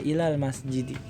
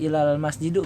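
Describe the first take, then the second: First: The last word ends in an i vowel. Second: The last word ends in an u vowel. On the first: The speaker calls it right. "tapi dibaca ilal masjidi" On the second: The speaker calls it wrong. "Enggak al enggak ilal masjidu misalnya"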